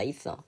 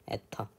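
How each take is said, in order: First: It is said as English 'ether', like 'isseo'. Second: It is said as the Korean reading 'eteo'. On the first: "본토 발음은 있어다" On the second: "한글로는 우리가 에터라고 해"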